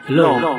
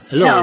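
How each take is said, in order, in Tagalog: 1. Natural at hindi binago ang tunog ng boses. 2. Mataas at cute ang tunog ng boses.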